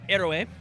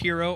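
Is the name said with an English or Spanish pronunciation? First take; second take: Spanish; English. First: The word is said with a Spanish pronunciation. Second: The word is said with an English pronunciation.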